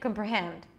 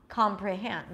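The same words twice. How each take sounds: First: The first vowel is reduced to a neutral schwa. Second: The first vowel is a full open 'ah'. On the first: "it's going to sound okay to say something with a schwa" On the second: "the beginning is ah"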